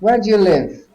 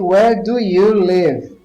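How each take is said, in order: First: The words are said quickly and run together. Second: The words are said slowly and kept apart.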